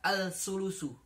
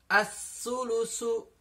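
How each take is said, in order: First: The l is pronounced before the s. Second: The l merges fully into the following s. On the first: The speaker calls it wrong. "tidak dibaca al-sulusu" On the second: The speaker calls it right. "alif lam dianggap e, tidak ada. Jadi langsung melebur"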